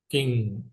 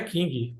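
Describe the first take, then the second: First: It ends on a nasal with no released g. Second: A hard g sound is released at the end. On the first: The speaker calls it right. "É Burger King" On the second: The speaker calls it wrong. "E não é King, pelo amor de Deus. Não fale isso"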